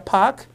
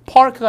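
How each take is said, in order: First: "park" with a long a and no R; R-less British. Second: "park" with the R sounded; American R. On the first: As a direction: leave the r out of "park". ('park'의 R을 빼고 길게) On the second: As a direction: pronounce the r in "park" before the k. ('park'의 R을 살린 발음) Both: Shown as a demonstration. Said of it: "발음들이 좀 차이가 나서".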